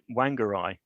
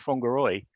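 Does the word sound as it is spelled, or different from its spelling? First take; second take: as spelled; different. First: It is pronounced just as it is spelled. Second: It is pronounced differently from its spelling. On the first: The speaker calls it wrong. "I pronounced it Whangarei, as you might, obviously looking at the word how it's spelled" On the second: The speaker calls it right. "actually it was Whangarei was was the pronunciation"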